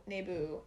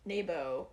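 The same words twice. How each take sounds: First: Naboo said as NAY-boo, ending in oo; softer Naboo with an oo ending; self-corrected Naboo. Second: Naboo said as NAY-bo, ending in oh; slow Naboo with an oh ending; mispronounced Naboo. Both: Real, not acted. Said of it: "Trying to do the Nebo thing".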